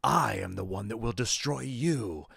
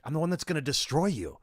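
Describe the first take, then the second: First: Slow, stiff, stress on I and you not destroy; bad actor overstressing the pronouns; wrong word stress. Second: Higher, hit destroy hard; stress on destroy. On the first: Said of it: "struggle to influence, to accent pronouns and be like". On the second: Shown as a demonstration. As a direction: punch the word destroy. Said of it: "you would hit the word destroy".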